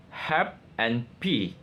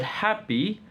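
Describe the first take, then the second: First: HAPPY split slowly as "hap and p"; syllable breakdown. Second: Said in the usual way. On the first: Shown as a demonstration. Student presenting two syllables of happy, slow and separated. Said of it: "syllable breakdown". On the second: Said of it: "The word happy".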